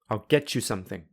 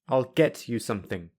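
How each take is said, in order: First: The t and y merge into ch. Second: The t and y stay separate sounds. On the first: "I will use linking" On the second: "I will say them without linking"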